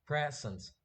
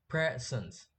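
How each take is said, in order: First: "present" as the verb, pre-SENT, second syllable strong; stress on SENT. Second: "present" as the noun, PRE-sent, first syllable strong; stress on PRE. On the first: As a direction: hit SENT in "present", reduce the first. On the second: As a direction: lean on PRE in "present", let sent fall away. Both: Shown as a demonstration. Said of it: "Pre is noun and sent is verb".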